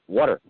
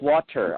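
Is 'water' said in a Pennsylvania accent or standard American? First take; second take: Pennsylvania; standard American. First: It is said in a Pennsylvania accent. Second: It is said in a standard American accent.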